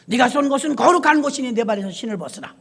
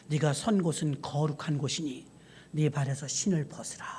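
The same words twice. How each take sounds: First: A fuller, ringing command with 거룩한 stressed; solemn proclamation. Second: Low, soft and solemn; a quiet, holy command from above; hushed voice of God. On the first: God commanding Moses to take off his shoes, full and solemn. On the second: The hushed voice of God telling Moses at the bush to remove his shoes. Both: Acted.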